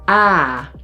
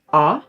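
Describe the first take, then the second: First: The vowel is said long. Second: The vowel is said short.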